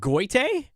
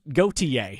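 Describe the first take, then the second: First: The name is said as two syllables, like 'goy-tee'. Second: The name is said as three syllables, 'go-tee-ay'. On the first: The speaker calls it wrong. "I can't pronounce the name, but is it Goite?" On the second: The speaker calls it right.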